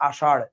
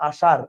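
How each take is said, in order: First: আষাঢ় with the tongue curled back on the final ঢ়; retroflex ṛh ending. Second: আষাঢ় pronounced আষার, with a simple r; light front-tongue r at the end of আষাঢ়; ordinary r ending. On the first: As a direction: close আষাঢ় on a retroflex flap, not a simple r. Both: Shown as a demonstration. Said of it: "উচ্চারণ same না".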